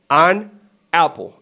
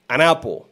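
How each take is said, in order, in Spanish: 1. Las dos palabras se dicen por separado. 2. La n se une suavemente con la siguiente palabra. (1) "No es" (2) "Será así"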